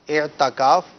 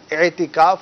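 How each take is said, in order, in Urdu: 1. t کے بعد والی آواز a ہے۔ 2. t کے بعد والی آواز i ہے۔ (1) "اعتکاف غلط ہے یہ نہیں کہیں گے" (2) "اعتکاف ہم کہیں گے"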